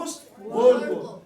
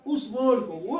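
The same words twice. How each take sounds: First: Louder and slower, every word pressed; a teacher's slow, loud repeat of اس word کو; emphatic repeat. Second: Said in the usual way. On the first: Shown as a demonstration. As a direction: drive اس word کو home to the class, loud and slow.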